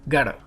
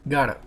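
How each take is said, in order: No difference in how they are said.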